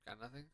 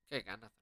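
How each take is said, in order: First: "Got nothing?" asked softly with a rising end; puzzled question. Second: "Okay, got nothing." said softly, falling and accepting; resigned. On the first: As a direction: quietly wonder if nothing happened. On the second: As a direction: shrug it off and accept it. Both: Real, not acted.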